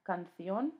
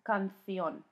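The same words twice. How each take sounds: First: The c is said like a th. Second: The same.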